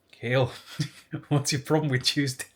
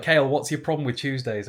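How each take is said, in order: First: Half-attempted Irish accent, breaking into a laugh; a giggly, barely-there Irish teacher voice; hint of Irish accent. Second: Said in the usual way. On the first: Year head questioning a pupil, faint Irish accent with a laugh. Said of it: "he was Irish, and I can't do the accent". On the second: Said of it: "No, I'm not doing the accent".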